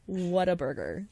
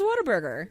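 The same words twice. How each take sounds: First: The word is said slowly and carefully. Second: The word is said quickly and run together. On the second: "if you say it fast"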